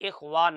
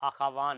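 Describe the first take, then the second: First: The first vowel is an 'i' sound. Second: The first vowel is an 'a' sound. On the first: The speaker calls it right. "यहाँ पर लफ्ज इखवान आया है" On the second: The speaker calls it wrong. "अखवान नहीं है"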